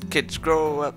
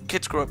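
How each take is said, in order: First: There is a pause after the first word. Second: The words run together without a pause. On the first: The speaker calls it wrong. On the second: The speaker calls it right.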